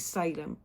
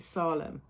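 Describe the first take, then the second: First: The name is said the American way. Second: The name is said the Welsh way. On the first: "if you're in America, it, you pronounce it Salem" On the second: "in Wales we call it Salem"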